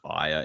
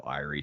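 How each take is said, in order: First: The name is said like 'Aya'. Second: The name is said like 'Irie'. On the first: This is how the speaker reads the spelling. The speaker calls it wrong. "Keep thinking of it as Aya" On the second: This is how the name was first heard. The speaker calls it right. "instead of Irie"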